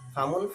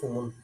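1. প্রথম সিলেবলে স্বরধ্বনি a আছে। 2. প্রথম সিলেবলে স্বরধ্বনি u আছে। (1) "জবর দেওয়াটা হলো আফসহ" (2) "ফ্যাস"

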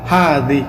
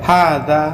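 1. শব্দটি একটি উঁচু 'ee' স্বরধ্বনি দিয়ে শেষ হয়। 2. শব্দটি একটি খোলা 'a' স্বরধ্বনি দিয়ে শেষ হয়। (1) "আঞ্চলিক ভাষায় বলা হয় হাদি" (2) "এটাকে আরবিতে বলা হয় হাদা"

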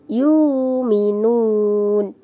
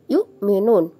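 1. Vokal u panjang menggantikan hamzah. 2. Hamzah muncul setelah suku kata pertama. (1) "Jangan wawunya" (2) "Yang dibaca hamzahnya ya"

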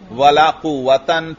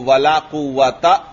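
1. आखिरी शब्द के अंत में एक अतिरिक्त 'n' ध्वनि है। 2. आखिरी शब्द एक सादे स्वर पर खत्म होता है। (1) "तनवीन के साथ पढ़ेंगे" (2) "वला कुवता यूं नहीं पढ़ेंगे"

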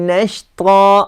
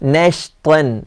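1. ഈ വാക്ക് നീണ്ട 'a' സ്വരത്തിലാണ് അവസാനിക്കുന്നത്. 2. ഈ വാക്ക് 'n' ശബ്ദത്തിലാണ് അവസാനിക്കുന്നത്. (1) "നമ്മൾ ആയത്തിൽ ഓതുമ്പോൾ നഷ്ത എന്നാതുക" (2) "ഇവിടെ എഴുതിയത് നഷ്ത്വൻ"

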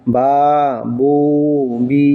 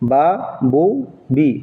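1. স্বরগুলো টেনে পড়া হয়। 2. স্বরগুলো ছোট করে পড়া হয়। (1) "আমাদের সঠিক উচ্চারণটা হবে" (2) "এটা ভুল"

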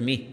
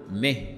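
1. الحركة كسرة i مغلقة تامة. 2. الحركة صوت شبيه بـ e متوسط. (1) "وليست مه" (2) "لكن أنت تقول مه"

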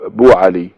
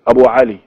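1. الاسم يبدأ مباشرة بصوت b. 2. الاسم يبدأ بصوت علة قبل b.

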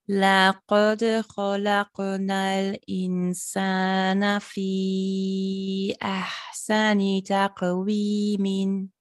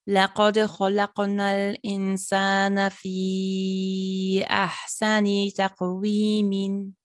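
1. Der Satz wird langsamer gelesen. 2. Der Satz wird schneller gelesen.

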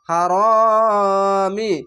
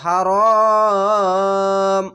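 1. শব্দটি হ্রস্ব ই স্বরে শেষ হয়। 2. শব্দটি সাকিনযুক্ত ম ব্যঞ্জনে শেষ হয়। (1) "হার মিম জের মি" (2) "এভাবে ওয়াকফ করবেন"

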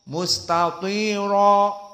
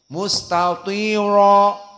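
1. Bunyi r-nya berat dan tebal. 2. Bunyi r-nya berat dan tebal.

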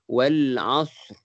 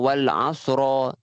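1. Kata ini berakhir dengan getaran r yang samar dan singkat. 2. Kata ini berakhir dengan suku kata ra yang jelas dan penuh. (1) "Ada bunyi ra tapi sikit" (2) "bukannya ra yang jelas macam wal asra"

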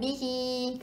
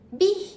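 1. Kata itu berakhir dengan vokal setelah h. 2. Kata itu berakhir tajam pada bunyi h. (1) "bukan bihi" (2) "Bih je"

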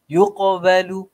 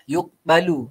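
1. Huruf qaf ada lepasan yang memantul dengan jelas. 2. Huruf qaf hanya ada lepasan yang lemah. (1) "sebutan dari kita ni akan jadi keluar sedikit sifat huruf qaf tu" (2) "bunyi macam ya dah tapi tak betul"

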